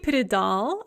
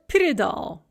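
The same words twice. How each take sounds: First: The stress is on the last syllable. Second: The stress is on the first syllable. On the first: "that's totally fine and normal and commonly used" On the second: "with the stress on that first yeah"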